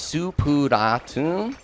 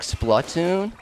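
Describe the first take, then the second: First: The word is said with Japanese-style sounds. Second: The word is said with English-style sounds. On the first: "Japanese does not leave anything up for debate, and it's Supuratun with an A" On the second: "I pronounced it more like Splatoon"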